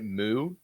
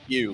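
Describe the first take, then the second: First: The vowel is a plain 'oo' without a 'y'. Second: The vowel has a 'y' glide before 'oo'. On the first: The speaker calls it wrong. "Some people will pronounce it Moo. They're wrong" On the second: The speaker calls it right. "It's pronounced Mew, like the sound a kitten makes"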